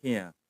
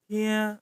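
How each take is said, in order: First: "Thia" said low with a falling tone; intonasi turun. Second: "Thia" held on a higher pitch; nada agak tinggi. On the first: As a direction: let "Thia" drop low and soft. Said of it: "intonasinya ke bawah". ("Thia" dengan nada rendah menurun) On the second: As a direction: stretch "Thia" slowly, up high. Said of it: "agak tinggi". ("Thia" dengan nada agak tinggi) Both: Shown as a demonstration.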